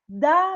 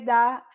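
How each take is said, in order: First: The word is said with strong force. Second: The word is said weakly, without force. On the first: It is a request to hand something over. "eu estou falando ele com mais força" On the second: It shows who something belongs to. "eu falei o da é diferente"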